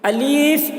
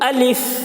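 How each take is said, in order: First: The middle vowel is drawn out long. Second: It ends in a breathy f with air escaping. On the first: The speaker calls it wrong. "अलीफ जो खींच कर पढ़ते हैं ये भी गलत है।" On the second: The speaker calls it right. "इसको जब अलिफ बोलते हैं तो हवा निकलती है। ... ये सही तलफ़्फ़ुज़ है अलिफ का।"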